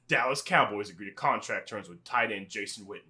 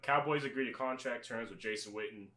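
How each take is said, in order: First: It is read in a put-on newscaster voice. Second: It is read in a plain, casual voice.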